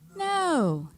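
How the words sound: It is said forcefully, with passion.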